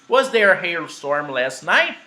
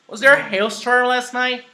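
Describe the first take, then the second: First: The question's pitch movement comes at the end. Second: The question's pitch movement comes at the beginning. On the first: "Portuguese, basically"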